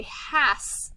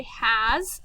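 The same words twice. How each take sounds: First: "has" ending in a hissed s, like hass; "has" read phonetically as hass; sounded-out pronunciation. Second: "has" ending in a buzzed z, like haz; "has" with a drawn-out final z sound; English pronunciation. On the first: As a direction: say "has" with a voiceless s at the end. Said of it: "if I sound it out". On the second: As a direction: say "has" with a voiced z at the end. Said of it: "we don't say has in English". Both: Shown as a demonstration.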